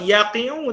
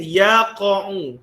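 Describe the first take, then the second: First: The middle vowel is an i sound. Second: The middle vowel is an a sound. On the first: The speaker calls it wrong. "tak boleh" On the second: The speaker calls it right. "Sebab apa baca yaqa'u?"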